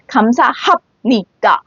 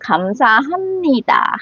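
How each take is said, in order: First: The syllable before 니다 ends in a P sound. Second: The syllable before 니다 ends in an M sound. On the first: The speaker calls it wrong. "it's not 감사합니다, like you're rapping or something" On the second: The speaker calls it right. "change that hap to more like 미음, like M 받침"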